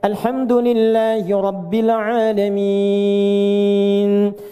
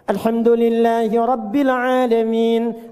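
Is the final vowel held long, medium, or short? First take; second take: long; short. First: The final vowel is held for about three seconds. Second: The final vowel is held for about one second. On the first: "bisa kita baca tiga detik ujungnya" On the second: "boleh dibaca satu detik, dua harakat. Untuk bacaan cepat"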